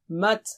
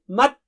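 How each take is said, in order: First: The final t releases with an audible breath. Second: The final t stops the breath abruptly. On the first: The speaker calls it right. "let the breath go on" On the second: The speaker calls it wrong. "you should not say"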